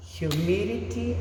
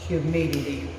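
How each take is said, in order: First: HUMIDITY with a sounded H at the start; pronunciation demo. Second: HUMIDITY with a silent H, starting on a Y sound; pronunciation demo. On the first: Teacher showing students the first accepted pronunciation, pronunciation demo. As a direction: say humidity with the H, as hyoo-MID-ity. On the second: Teacher showing students the alternative pronunciation, pronunciation demo. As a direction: say humidity as yoo-MID-ity. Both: Shown as a demonstration. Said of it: "Here the pronunciation is".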